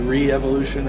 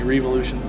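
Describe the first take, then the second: First: It is said as re-evolution, with an extra syllable. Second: It is said as the single word revolution. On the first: "it can be re-evolution" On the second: "it can be revolution"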